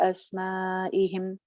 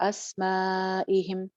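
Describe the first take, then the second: Both takes have the same delivery.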